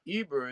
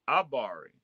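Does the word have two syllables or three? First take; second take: two; three. First: The word is said with two syllables. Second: The word is said with three syllables. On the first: The speaker calls it wrong. "it's not Eber" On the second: The speaker calls it right. "it's Abari"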